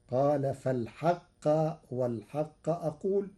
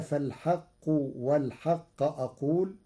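First: فالحق said as fal-ḥaqqa, the qaf carrying fatha; Warsh qaf with fatha. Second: Said in the usual way. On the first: Shown as a demonstration. Teacher demonstrating Warsh's فالحق with fatha on the qaf. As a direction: recite فالحق in the accusative, ending in -qqa. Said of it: "فتصير". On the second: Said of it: "بنصب القاف".

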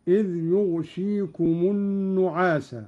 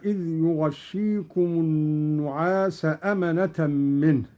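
First: يغشيكم as yughshikum, silent ghayn, light shin; Qalun reading يغشيكم. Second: Said in the usual way. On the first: Shown as a demonstration. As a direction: read يغشيكم with sukun on ghayn. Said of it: "بإسكان الغين وكسر الشين مخففة". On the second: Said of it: "قرأ قالون".

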